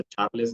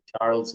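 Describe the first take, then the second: First: "Charles" as the other possible reading; alternative name pronunciation. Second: "Charles" as a first try at pronouncing the name; first guess at name. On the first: Streamer greeting a viewer, tentative second pronunciation of "Charles". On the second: Streamer unsure of a viewer's name, tentative first pronunciation of "Charles". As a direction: say "Charles" tentatively, one of two possible readings. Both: Shown as a demonstration. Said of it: "cómo se dirá tu nombre".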